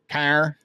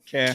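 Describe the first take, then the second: First: It is said in a nasal Chicago accent. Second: It is said in a Boston accent. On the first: "maybe I can kind of do the nasally Chicago thing" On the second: "here's the secret to Boston"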